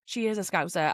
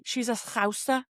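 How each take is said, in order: First: Said in the usual way. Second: Light put-on Scouse twang; a hint of mock Scouse; Scouse accent. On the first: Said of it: "that was a really bad Scouse accent". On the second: Shown as a demonstration. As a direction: say Scouser with a touch of Liverpool accent.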